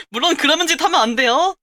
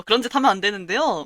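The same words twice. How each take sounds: First: Laughing. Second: Said in the usual way. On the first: Real, not acted.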